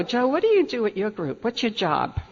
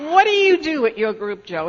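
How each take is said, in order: First: A light touch of smugness, boasting to her husband; smug brag. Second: Higher and louder, arrogant mock question; smug, arrogant. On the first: Retold or imitated. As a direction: tease him a little, half-smug. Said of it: "with that very smug, arrogant attitude". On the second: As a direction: lord it over him, fully smug. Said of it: "arrogant attitude".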